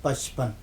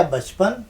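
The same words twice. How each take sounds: First: پچپن with a crisp unvoiced p at the start; clear p sound. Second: بچپن with a voiced b at the start; clear b sound. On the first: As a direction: say پچپن opening on a sharp p. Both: Shown as a demonstration. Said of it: "صرف نقطہ آپ نے بدلا".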